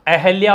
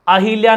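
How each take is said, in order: First: No extra vowel follows the h. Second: An extra i vowel follows the h. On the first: The speaker calls it right. "अहल्या होगा" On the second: The speaker calls it wrong. "अहिल्या नहीं होगा"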